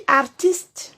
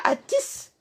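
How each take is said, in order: First: Artiste with the r fully sounded, ar-tist; correct artiste. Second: Artiste mocked as atis, r dropped and t swallowed; mocking wrong artiste. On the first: Shown as a demonstration. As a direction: say artiste clearly, r and final t both heard. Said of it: "On dit artiste". (artiste bien articulé, avec le r et le t final) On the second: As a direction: imitate the sloppy artiste, atis with a long a. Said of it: "on ne dit pas artiste". (artiste moqué, prononcé atis sans le r)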